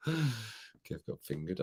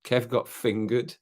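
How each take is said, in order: First: Very soft, very slow, half-whispered "Kev got fingered"; hushed mock-ominous. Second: Said in the usual way. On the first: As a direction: drop it to a slow, hushed murmur, like a dark joke. Rereading the cheeky comment.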